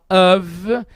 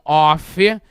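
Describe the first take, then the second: First: The word ends with a v sound. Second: The word ends with an f sound. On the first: The speaker calls it right. "som de V no final" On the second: The speaker calls it wrong. "e não of"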